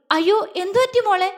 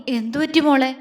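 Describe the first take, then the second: First: High-pitched, anxious cry of concern; motherly alarm. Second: Concerned repeat question. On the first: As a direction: gasp out the worried question. Mother alarmed at crying girl. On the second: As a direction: ask with steady, contained worry. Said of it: "അവൻ വീണ്ടും ചോദിച്ചു". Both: A narrator's reading.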